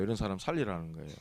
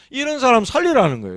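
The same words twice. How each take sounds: First: Much lower and softer, quick, 살리라는 barely lifted; quiet fast echo. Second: 살리라는 punched higher and louder, falling at the end; emphatic declaration. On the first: Preacher to congregation, a soft quick echo. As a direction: murmur it back fast as an afterthought. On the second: Preacher to congregation, declaring loudly. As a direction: proclaim 살리라는 with force to the congregation. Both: Shown as a demonstration. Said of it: "repeats the line in a new way".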